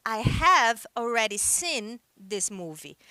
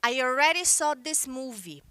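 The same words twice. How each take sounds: First: "I have already seen this movie" said slowly, word by word; slow model sentence. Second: "I already saw this movie" said slowly, word by word; slow model sentence. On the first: Teacher models the British sentence for students, slow and clear. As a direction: spell it out slowly for the class. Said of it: "Então, por exemplo". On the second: Teacher models the American sentence for students, slow and clear. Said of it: "No inglês americano, a pessoa vai chegar e vai dizer". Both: Shown as a demonstration.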